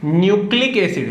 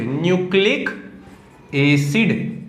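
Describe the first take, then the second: First: Said in the usual way. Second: "nucleic", pause, then "acid"; slow dictation. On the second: Shown as a demonstration. Teacher dictating DNA's full form to students, slow dictation.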